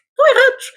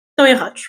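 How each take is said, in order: First: Words broken by a burp. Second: Said in the usual way. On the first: Real, not acted. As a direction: voice jumps on a burp. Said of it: "estou com rotos". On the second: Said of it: "Perdão, estou com soluços".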